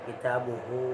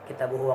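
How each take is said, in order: First: The final 'hu' vowel is long. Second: The final 'hu' vowel is short. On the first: The speaker calls it right. "tapi panjang" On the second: The speaker calls it wrong. "bukan bukan pendek"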